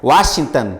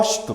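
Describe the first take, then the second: First: The name is said in full, every sound clear. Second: The name is clipped and its sounds are slurred. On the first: The speaker says the name properly. The speaker calls it right. "certinho, pronunciando" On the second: The speaker cannot manage the name's sounds. The speaker calls it wrong. "a dicção não sai, o fonema sai Óstito"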